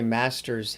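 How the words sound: It is said in an American accent.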